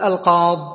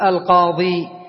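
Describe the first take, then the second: First: The word ends without the long 'ee' vowel. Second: The word ends with a long 'ee' vowel. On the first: "تحذف الياء" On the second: "فتقف بالياء"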